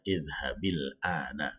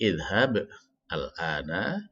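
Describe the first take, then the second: First: The words are joined with an i linking sound. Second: The two words are read separately.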